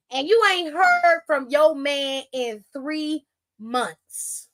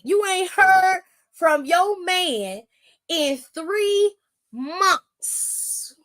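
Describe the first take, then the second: First: Slow, heavy stress on "heard"; slow emphatic. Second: Higher and much slower, "three" stretched on a rise; slower, higher emphatic repeat. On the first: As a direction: lean hard on "heard" and drag it out. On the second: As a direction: drag out "three months" with rising disbelief. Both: Shown as a demonstration. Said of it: "Let me reiterate".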